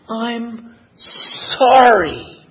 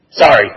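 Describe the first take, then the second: First: A very slow, tender "I'm sorry"; the mother apologising to her hurt child with all her love; heartfelt apology. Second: A curt, reluctant "Sorry" pushed out a bit louder; the child forced to apologise, not meaning it; grudging sorry. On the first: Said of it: "with all the empathy and all the love". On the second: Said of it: "and the child goes". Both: Retold or imitated.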